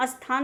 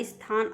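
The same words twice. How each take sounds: First: स्थान said as "asthaan"; wrong pronunciation. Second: स्थान said as "isthaan"; correct pronunciation. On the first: Teacher showing students the error, स्थान as "asthaan". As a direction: open स्थान with a short "a" sound. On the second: Teacher correcting students, स्थान as "isthaan". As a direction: lead into स्थान with a light "i". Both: Shown as a demonstration. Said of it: "स्थान नहीं होता".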